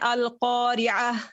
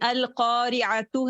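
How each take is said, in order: First: The word ends with an 'h' sound. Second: The word ends with a 'tu' sound. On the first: The reader stops at this word. "राउंड जो ता है उसको आपने हा में चेंज कर देना है" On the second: The reading continues without stopping. "ता को आपने हा में चेंज कर देना है"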